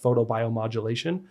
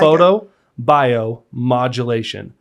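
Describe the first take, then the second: First: The word is said quickly as one run. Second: The word is said slowly, split into parts. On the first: "you said that really fast" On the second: "I'll break it"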